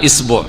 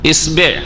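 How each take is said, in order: First: The b is followed by a u vowel. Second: The b is followed by an i vowel. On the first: "শুধু বায়ের হরকত" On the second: "শুধু বায়ের হরকত"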